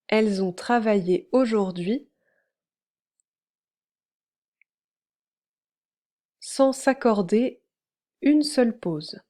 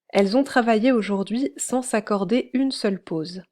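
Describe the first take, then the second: First: The sentence is read at a slower pace. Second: The sentence is read at a normal pace.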